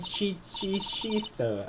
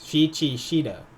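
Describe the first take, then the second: First: An extra S sound comes before the last syllable. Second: No extra S sound comes before the last syllable. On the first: The speaker calls it wrong. "I hope I'm pronouncing that right" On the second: The speaker calls it right. "there's no extra S"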